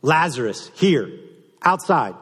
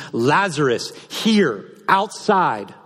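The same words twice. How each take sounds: First: Higher, louder summons, clipped and quick; commanding call repeated. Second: Higher, louder summons to the tomb; commanding call. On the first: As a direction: call him out again, short and sharp. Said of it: "I love that simple". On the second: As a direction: call him out, word by word. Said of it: "In the Greek, it literally means". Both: Acted.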